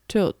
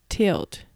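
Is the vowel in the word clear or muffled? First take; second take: muffled; clear. First: The vowel is muffled, lips not spread. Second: The vowel is clear, lips spread wide. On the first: The speaker calls it wrong. "口を広げずに、つまりe の形を作らないで発音しようとするとtilt となって伝わりにくく" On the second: The speaker calls it right. "e の音を強調できる口の形にしましょう"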